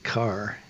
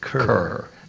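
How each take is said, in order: First: The vowel sounds like the one in 'car'. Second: The vowel sounds like the one in 'fur'. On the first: This is how people locally said the name. "most of the time we pronounced it Carr" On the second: This is how the name looks from its spelling. "but it looks like Kerr"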